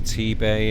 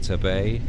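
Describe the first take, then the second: First: The first syllable sounds like tee. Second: The first syllable sounds like tah. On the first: The speaker calls it right. "when I've been to T-Bay in the past" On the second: The speaker calls it wrong. "I've called it Tabay"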